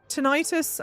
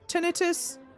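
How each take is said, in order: First: It is said in the American way. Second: It is said in the British way. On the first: "Tinnitus American?" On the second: "Tinnitus British English?"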